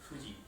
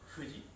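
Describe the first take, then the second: No difference in how they are said.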